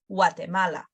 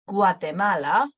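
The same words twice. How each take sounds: First: It begins with a W sound. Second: It begins with a hard G sound. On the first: "like a W sound" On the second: "So we pronounce it as a normal G"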